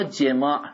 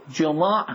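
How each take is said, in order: First: E sound in the first syllable of jemā'; jemā' voweled with kasra; jemā' with a short e. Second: O sound in the first syllable of jomā'; jomā' voweled with damma; jomā' with a short o. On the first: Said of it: "با کسره نوشته". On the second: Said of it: "با ضمه نوشته". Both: Shown as a demonstration.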